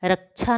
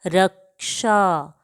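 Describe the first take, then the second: First: रक्षा said as rəkt͡ʃa with a ch sound; the wrong take of रक्षा with छ; wrong pronunciation. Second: रक्षा said slowly with क्ष as kʃ; drawn out रक्षा with clear kʃ cluster; correct pronunciation. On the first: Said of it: "नहीं पढ़ते हैं". (रक्षा गलत, क्ष को छ जैसा) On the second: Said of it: "जैसे हम इसको पढ़ते हैं". (रक्षा धीमे, क्ष को कश जैसा) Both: Shown as a demonstration.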